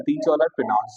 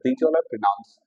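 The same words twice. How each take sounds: First: Slow dictation. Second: Said in the usual way. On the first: Shown as a demonstration. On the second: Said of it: "these all are pronouns sir".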